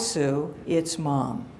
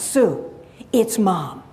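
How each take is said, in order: First: It is said in a flat monotone. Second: It is said with a lively, varied pitch. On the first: "a bit of a, mon a monotone" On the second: "my mother's voice has changed"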